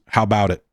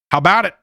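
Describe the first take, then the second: First: Said in the usual way. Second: Higher, louder, rising hype; excited call. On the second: Shown as a demonstration. Host hyping the break, louder and higher. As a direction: pump up the audience. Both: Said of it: "repeated call".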